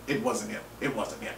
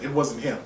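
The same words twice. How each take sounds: First: Softer, trailing off; much softer closing echo; fading repeat. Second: Said in the usual way. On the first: Real, not acted. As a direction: let it die away.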